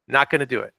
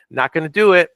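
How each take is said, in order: First: Said in the usual way. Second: Firm refusal. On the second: Real, not acted. Firm refusal, first emphatic take.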